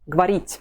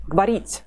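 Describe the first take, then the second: Both takes have the same delivery.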